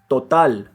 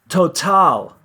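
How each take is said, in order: First: The T is said without a puff of air. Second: The T is said with a puff of air.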